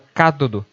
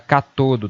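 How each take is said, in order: First: The stress is on the first syllable. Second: The stress is on the second syllable. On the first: The speaker calls it right. "A forma correta, formal, é o cátodo" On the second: The speaker calls it wrong. "muita gente acaba utilizando a paroxítona cátodo"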